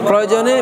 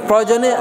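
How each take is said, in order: The two takes are said the same way.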